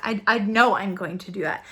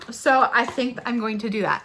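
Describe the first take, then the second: First: KNOW leaned on, firm falling tune; decided, with emphasis on know; stress on know. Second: Tentative decision with emphasis on think; stress on think. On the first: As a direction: correct yourself by stressing know. Corrects think to know. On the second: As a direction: lean on the word think. Tentative decision, then firmer version. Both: Real, not acted.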